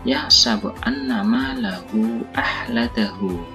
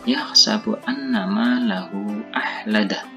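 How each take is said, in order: First: The last word ends with a long hu. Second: The last word ends with a bare h. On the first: The reading continues without stopping. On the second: The reader stops at this word.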